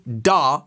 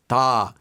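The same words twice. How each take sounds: First: The D sound is hard and forceful. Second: The D sound is soft and light. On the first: The speaker calls it wrong. "I don't want you to say da with a hard D" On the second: The speaker calls it right. "I want you to say it a little bit softer"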